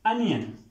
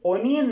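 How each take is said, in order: First: The first vowel sounds like 'uh'. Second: The first vowel sounds like 'o'. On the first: The speaker calls it right. "Correct pronunciation है इसकी, अनियन" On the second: The speaker calls it wrong. "ये word ओनियन नहीं होता"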